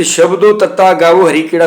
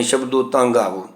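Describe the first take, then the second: First: ਤੱਤਾ said letter by letter as tatta, not taan; wrong literal reading. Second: ਤਾਂ said as a nasal taan, softly; correct reading. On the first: Teacher shows students the reading nobody uses, spelt-out ਤੱਤਾ. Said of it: "ਕੋਈ ਵੀ ਨਹੀਂ ਪੜ੍ਹਦਾ". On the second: Teacher gives students the proper reading, nasal ਤਾਂ. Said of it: "ਤਾਂ ਬਣਦਾ ਹੈ ਕਿ". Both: Shown as a demonstration.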